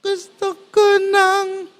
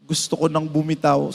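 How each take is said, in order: First: Gusto ko nang lifted much higher and slowed; raised higher. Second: Low, soft mock-weary gusto ko nang bumitaw; too low. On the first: Shown as a demonstration. Pastor redoing the plea higher as he told it, slow and raised. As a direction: pitch Gusto ko nang up high, drawn out. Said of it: "itaas mo ng konti". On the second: Pastor imitating a crying churchgoer, low and soft. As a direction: let gusto ko nang bumitaw sink low and quiet like a tired plea. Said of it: "Parang mababa, itaas mo ng konti".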